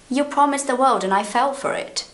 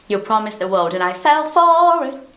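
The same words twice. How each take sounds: First: It has the ordinary intonation of everyday speech. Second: It follows the song's melodic intonation. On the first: The speaker calls it right. "if I were talking to you, I would say" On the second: The speaker calls it wrong. "I wouldn't say that"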